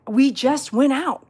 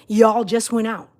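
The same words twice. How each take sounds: First: "we" hit hard, slow; stress on we. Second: "Y'all" hit hard, slow, correcting herself; stress on y'all. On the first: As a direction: lean on "we" in "we just went out". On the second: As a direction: lean on "Y'all" in "Y'all just went out". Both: Real, not acted.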